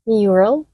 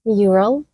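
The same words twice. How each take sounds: The two takes are said the same way.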